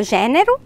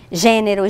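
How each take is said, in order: First: Gênero with an open stressed é; open vowel. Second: Gênero with a closed stressed ê; closed vowel. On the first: Teacher listing both forms, gênero with open é. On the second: Teacher listing both forms, Gênero with closed ê. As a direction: keep the first e of Gênero closed. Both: Shown as a demonstration. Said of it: "com o som mais aberto".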